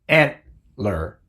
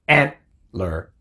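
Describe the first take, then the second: Both takes have the same delivery.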